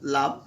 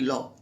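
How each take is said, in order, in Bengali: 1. স্বরধ্বনিটি একটি খোলা 'ah' ধ্বনি। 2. স্বরধ্বনিটি একটি গোলাকার 'o' ধ্বনি।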